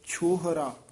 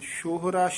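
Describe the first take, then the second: First: The word begins with an aspirated 'ch' sound. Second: The word begins with a 'sh' sound. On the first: The speaker calls it right. "ਛੱਛਾ ਬੋਲਣਾ ਹੈ" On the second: The speaker calls it wrong. "ਸ਼ਿਸ਼ਾ ਨਹੀਂ ਬੋਲਣਾ"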